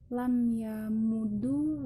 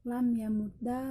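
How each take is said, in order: First: The word ends with a u vowel. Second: The word ends with an a vowel.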